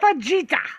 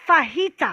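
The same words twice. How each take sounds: First: The j is not said as an h sound. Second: The j is said as an h sound. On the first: The speaker calls it wrong. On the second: The speaker calls it right. "The J makes an H sound like Jose. / Right, it's fajita"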